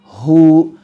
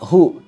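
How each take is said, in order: First: The vowel is held for two counts. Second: The vowel is held for one short count. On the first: The speaker calls it right. "tapi kita baca dua harokat" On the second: The speaker calls it wrong. "tidak dibaca satu harokat"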